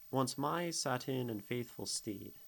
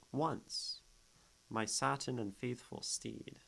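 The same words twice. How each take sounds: First: Said in the usual way. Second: Once, set apart by a clear comma pause before my satin; Once lifted, a breath of pause, then the rest of the line; pause after Once. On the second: Shown as a demonstration. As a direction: hold a beat after Once, then read on.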